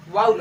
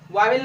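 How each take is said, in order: First: वाउल with au, no middle v; corrected pronunciation. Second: वावेल with a v in the middle; wrong pronunciation. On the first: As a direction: glide straight from va into ul: वाउल. (वाउल, बीच में व के बिना सही उच्चारण) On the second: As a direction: say it as वावेल, two v sounds. (वावेल, बीच में व के साथ गलत उच्चारण) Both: Shown as a demonstration. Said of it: "वावेल नहीं".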